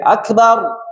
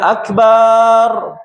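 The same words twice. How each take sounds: First: The final syllable's vowel is short. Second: The final syllable's vowel is drawn out long. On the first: Most great. The speaker calls it right. "Akbar ketika dibaca pendek" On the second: A drum. The speaker calls it wrong. "kalau dipanjangkan akbar, barnya panjang"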